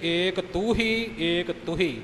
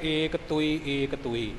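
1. ਇਹ ਸ਼ਬਦ h ਦੀ ਆਵਾਜ਼ ਦੇ ਨਾਲ ਬੋਲਿਆ ਜਾਂਦਾ ਹੈ। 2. ਇਹ ਸ਼ਬਦ ਬਿਨਾਂ h ਦੀ ਆਵਾਜ਼ ਦੇ ਬੋਲਿਆ ਜਾਂਦਾ ਹੈ। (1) "ਇੱਥੇ ਪਾਠ ਹਾਹੇ ਦੇ ਨਾਲ ਆਏ ਨੇ" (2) "ਅੱਗੇ ਈੜੀ ਦੇ ਨਾਲ ਆਉਣਗੇ"

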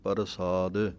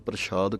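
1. r ਪੂਰੇ ਵੱਖਰੇ ਅੱਖਰ ਵਾਂਗ ਬੋਲਿਆ ਜਾਂਦਾ ਹੈ। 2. ਵਿਚਲਾ ਵਿਅੰਜਨ sh ਦੀ ਆਵਾਜ਼ ਹੈ। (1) "ਕਈ ਵਾਰੀ ਰਾਰਾ ਪੂਰਾ ਲਾ ਦਿੰਦੇ ਹਾਂ" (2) "ਇੱਕ ਤਾਂ ਬਿੰਦੀ ਕੋਲੋਂ ਲਾ ਦਿੰਦੇ ਹਾਂ"

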